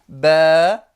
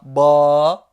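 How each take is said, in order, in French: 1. La voyelle est fine et légère. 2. La voyelle est emphatique et sombre. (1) "mais plutôt" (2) "je ne dis pas"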